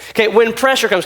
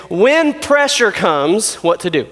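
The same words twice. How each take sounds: First: Said in the usual way. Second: When pressure comes drawn out very slowly, rising; slow announced title. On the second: Shown as a demonstration. Preacher announcing the night's topic to the youth, very slow and rising. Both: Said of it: "what I wanna talk about is this".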